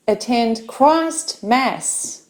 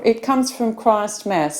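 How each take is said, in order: First: "Christ Mass" said slowly as two separate words; Christ Mass split apart. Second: Said in the usual way. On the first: Shown as a demonstration. Teacher spelling out the name of Christmas, slow and split.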